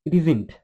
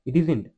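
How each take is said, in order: The two takes are said the same way.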